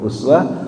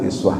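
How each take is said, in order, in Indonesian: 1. Vokal pertama adalah bunyi 'u'. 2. Vokal pertama adalah bunyi 'i'. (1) "boleh dibaca uswah" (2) "boleh dibaca iswah"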